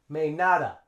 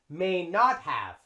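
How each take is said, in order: First: Not have is reduced to a blended 'nada' sound. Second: Not have is pronounced fully as separate words. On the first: "They would say may nada" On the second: "notice for the negative"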